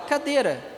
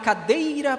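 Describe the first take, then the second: First: The middle syllable is reduced, dropping the i sound. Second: The middle syllable keeps its full ei sound. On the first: The speaker calls it right. "A gente fala cadeira" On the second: The speaker calls it wrong. "Vocês falam assim? Não, é muito raro"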